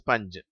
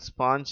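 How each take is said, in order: First: The vowel is a short 'uh'. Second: The vowel is a long open 'ah'. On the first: The speaker calls it right. "அதனுடைய சரியான உச்சரிப்பு" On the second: The speaker calls it wrong. "தவறாக ஸ்பாஞ்ச் என்று உச்சரிக்கிறார்கள்"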